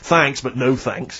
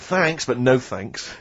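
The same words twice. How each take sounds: First: It is said aggressively and sarcastically. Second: It is said plainly and sincerely.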